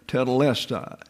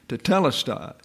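First: The stress falls on the 'les' syllable. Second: The stress falls on a 'te' syllable. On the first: The speaker calls it wrong. "some people pronounce that tetelestai. Well, less is not accented" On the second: The speaker calls it right. "It's the T-E that's accented"

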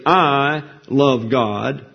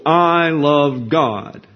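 First: The stress falls on the word I. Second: The stress falls on the word God. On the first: The focus is on oneself, which is arrogant. The speaker calls it wrong. "putting the emphasis on the subject, you, that's arrogance and blasphemous" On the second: The love is directed at a perfect object, which is virtuous. The speaker calls it right. "Putting emphasis on the object makes that virtuous"

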